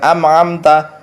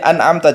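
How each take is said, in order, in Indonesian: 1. Dimulai dengan bunyi 'm' sebelum hentian glotal. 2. Dimulai dengan bunyi 'n' sebelum hentian glotal. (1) "jangan am'amta" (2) "dilatih an'amta"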